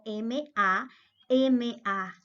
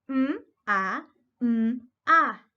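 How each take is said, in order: First: Each letter is said by its alphabet name. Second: Each letter is voiced as its bare sound. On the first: The speaker calls it wrong. "y no por el nombre como M A, M A" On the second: The speaker calls it right. "nosotros decimos es m, a, m, a"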